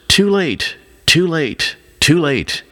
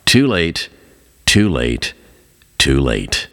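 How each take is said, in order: First: Crying out. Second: Fading despairing cry. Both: A narrator's reading. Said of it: "crying out".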